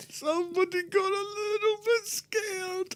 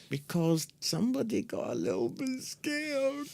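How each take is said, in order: First: Much higher, soft sing-song taunt; mock baby talk. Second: High, soft mocking sing-song; teasing. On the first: Teasing co-host about being scared, high soft baby-talk taunt. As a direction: coo it like talking to a baby. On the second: Teasing co-host about being scared, soft mocking sing-song. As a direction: needle him gently, higher and softer.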